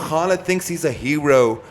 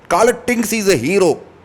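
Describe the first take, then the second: First: It is said in the speaker's ordinary accent. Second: It is said in an imitated Indian accent.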